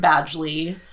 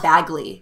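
First: The name is said with a D sound. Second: The name is said without a D sound. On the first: The speaker calls it right. "It's Penn Badgley" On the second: The speaker calls it wrong. "I was just saying Bagley"

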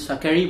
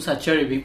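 First: The middle consonant is said the Italian way. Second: The middle consonant is said like ch. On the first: This is the Italian way of saying the name. "the Spanish Italian will be Saqueri" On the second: This is how an Argentine speaker says the name. "because I pronounce the C with the H"

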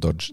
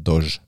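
First: The word is said with a d sound inside. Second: The word is said without a d sound inside. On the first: The speaker calls it wrong. "Det heter ikke Dodge" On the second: The speaker calls it right. "det heter Dodge. Det er ikke en D inne der"

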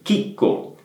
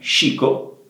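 First: The word begins with a hard k sound. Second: The word begins with a soft sh sound. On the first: The speaker calls it right. "è importante che la pronunciate come chicco" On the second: The speaker calls it wrong. "e non scico"

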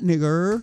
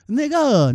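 First: The word ends in an 'er' sound. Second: The word ends in an open 'a' vowel. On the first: "I ain't say it with the E R" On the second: "I say it with the A"

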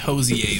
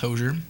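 First: The final R is silent, French-style. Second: The final R is sounded. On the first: The speaker calls it wrong. "like some shit where it's like the silent R, where it's like some French shit" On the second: The speaker calls it right. "I think it's Hosier"

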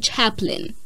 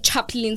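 First: The name is said without a Zulu-sounding pronunciation. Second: The name is said with a Zulu-sounding pronunciation. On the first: The speaker calls it right. "Say Chaplin" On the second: The speaker calls it wrong. "Don't say Chaplin. ... it sounds so Zulu"

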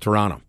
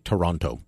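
First: The second T is dropped. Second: The second T is clearly pronounced. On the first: It sounds like someone local. The speaker calls it right. "Nobody near it pronounces it that way" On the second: It sounds like someone from elsewhere in Canada. The speaker calls it wrong. "I hate it when I pronounce that second T"

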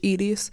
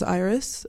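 First: The name is said with a Spanish accent. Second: The name is said with an English accent.

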